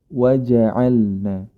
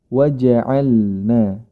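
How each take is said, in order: The two takes are said the same way.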